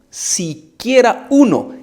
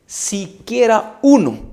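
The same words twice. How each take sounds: The two takes are said the same way.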